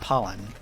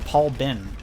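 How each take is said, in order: First: The name runs together as one word. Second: The name is split into two words. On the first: The speaker calls it wrong. "You're not Pollen" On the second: The speaker calls it right. "You're Paul Ben"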